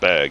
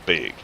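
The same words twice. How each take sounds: First: The vowel is the speaker's ordinary one. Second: The vowel is shifted toward a Wisconsin sound. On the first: "instead of bag" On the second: "it was, would you like a bag?"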